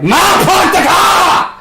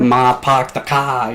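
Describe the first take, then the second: First: High, slow Boston-accent holler; shouted Boston accent. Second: Slow Boston accent with dropped R's. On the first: Screaming to mom in another room, Boston-accent shout. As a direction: bellow it in a hammed-up Boston accent. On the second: Showing off a Boston accent to a friend, slow Boston drawl. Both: Shown as a demonstration. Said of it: "like, a Boston accent".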